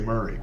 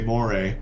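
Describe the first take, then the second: First: It sounds like the surname Murray. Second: It sounds like the eel name, moray. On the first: It names the whisky on the label. "if you ask them to read what's on that label, they'll say Murray" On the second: It names the eel. "if you ask a Scotsman to name an eel, they'll say Moray"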